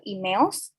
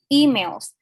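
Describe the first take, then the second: First: The stress is on the second syllable. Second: The stress is on the first syllable. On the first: The speaker calls it wrong. "Jadi malah di suku kata kedua" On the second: The speaker calls it right. "word stressnya ada di suku kata pertama"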